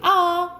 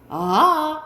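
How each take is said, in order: First: The syllable is said on a high pitch. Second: The syllable starts low and rises higher. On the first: "높은 소리 아 이렇게 하고" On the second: "상성에서 낮았다가 높아지면서 아 이렇게 되는 소리"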